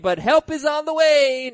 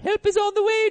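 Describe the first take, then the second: First: It is said in an ordinary newsreader voice. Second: It is said in an imitated character voice. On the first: The speaker calls it wrong. "I didn't really say it that well" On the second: The speaker calls it right. "I might have gotten it if you said it that way"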